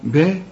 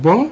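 First: "با" thin and fronted, like "beh"; light ba. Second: "با" thick and dark, rounded like "baw"; wrong heavy ba. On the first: Teacher answering with the correct ba, light. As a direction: keep the vowel of "با" light and forward. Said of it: "رقق الباء". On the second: Teacher asking which ba is right, heavy one. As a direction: darken the vowel of "با". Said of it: "الب با ولا با؟". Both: Shown as a demonstration.

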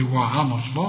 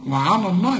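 First: وعلى الله said the way to avoid; mock the wrong reading of وعلى الله; wrong heavy reading. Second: وعلى الله with thin waw and ain and a heavy lam in الله; correct reading. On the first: Teacher warning the student off a wrong reading. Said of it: "اوعى تقول لي". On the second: Teacher giving the correct version after the warning. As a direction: read وعلى الله the right way. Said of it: "لفظ الجلالة هنا المفتوح مفخم". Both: Shown as a demonstration.

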